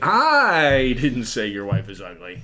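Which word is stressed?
I. The stress is on "I".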